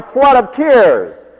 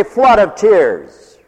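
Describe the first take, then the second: First: Flood of tears drawn out slowly; "flood of tears" said slowly, leaning on "flood"; slow emphasis. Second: "flood of tears" slowed again, "flood" weighted; slow emphasis. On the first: Preacher stretching "flood of tears" for the congregation, slowly. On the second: Preacher repeating "flood of tears" slowly to drive it home. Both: Real, not acted. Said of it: "let's say, flood of tears".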